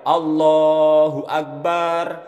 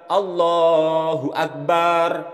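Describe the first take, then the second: No difference in how they are said.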